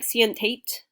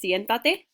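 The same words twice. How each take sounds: First: It is read out with English-style sounds. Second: It is said with Spanish sounds. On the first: The speaker calls it wrong. "I know it looks like siéntate, but that's not how we pronounce it in Spanish" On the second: The speaker calls it right. "It's siéntate"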